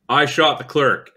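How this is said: It falls at the end like a flat confession.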